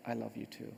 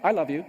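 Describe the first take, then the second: First: Very soft, low and tender; whispered. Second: Louder, abrupt forced declaration; insincere. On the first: Little boy answers in the speaker's ear, whispered. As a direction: imitate a hushed word in the ear. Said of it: "then whispered flawlessly in my ear". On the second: Boy ordered by mom to say it, insincere. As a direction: blurt it out as a boy with no sincerity. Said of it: "as insincerely as I possibly could". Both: Retold or imitated.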